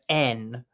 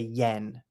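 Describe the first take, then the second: First: The word starts with a plain vowel, no y. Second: The word starts with a clear y sound. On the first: "It's actually pronounced the N, like the, you know, letter N" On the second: "but I know you guys say yen"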